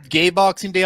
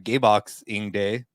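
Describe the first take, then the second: First: Boxing is said smoothly without an inner pause. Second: A pause splits boxing between box and ing.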